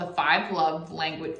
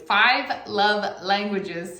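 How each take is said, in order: First: Said in the usual way. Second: Slow, deliberate "Five Love Languages" with each word drawn out; careful. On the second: Shown as a demonstration. Correcting herself to say the book title slowly. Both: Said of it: "say it well".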